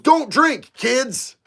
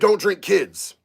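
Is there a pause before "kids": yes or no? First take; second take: yes; no. First: There is a pause before "kids". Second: There is no pause before "kids".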